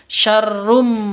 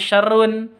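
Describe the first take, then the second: First: The word ends with closed lips, an m sound. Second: The word ends with a clear n sound. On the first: The speaker calls it right. "Tapi syarrum. Mingkem" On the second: The speaker calls it wrong. "Bukan syarrun"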